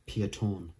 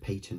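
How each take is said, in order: First: The name begins with a 'pie' sound. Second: The name begins with a 'pay' sound. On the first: "It's Pieton because it's like a kind of one of those French Belgian names" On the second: "a lot of people pronounce it Peyton, but it's actually wrong"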